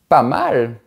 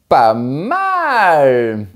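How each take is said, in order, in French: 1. Il est dit d'un ton satisfait, approbateur. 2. Il est dit d'un ton enthousiaste, excité. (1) "C'est bien" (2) "Super. Bravo"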